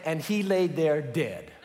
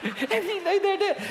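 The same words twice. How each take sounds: First: Said in the usual way. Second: Higher, laughing through the line. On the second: Shown as a demonstration. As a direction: crack up reading it. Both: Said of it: "the Bible is so funny".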